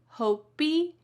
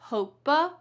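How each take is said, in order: First: The word ends with an extra ee vowel. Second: The word ends with an extra uh vowel.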